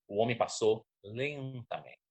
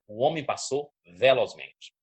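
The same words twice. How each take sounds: First: Slow, softer "lentamente" to show slowness; drawn-out "lentamente". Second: "velozmente" said firmly to suggest speed; swift delivery on "velozmente". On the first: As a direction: stretch "lentamente" out slowly. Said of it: "Aí você já mudou". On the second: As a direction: demonstrate intonation, punching "velozmente" as something swift. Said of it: "entonação pra cada tipo de coisa". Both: Shown as a demonstration.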